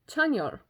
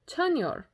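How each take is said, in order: No difference in how they are said.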